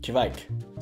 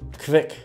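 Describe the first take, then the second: First: Its vowel differs from the vowel in 'quick'. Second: It sounds like 'quick' with a V sound. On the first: The speaker calls it right. "it's no longer pronounced that way" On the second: The speaker calls it wrong. "it's pronounced like quick, but with a V instead of a U"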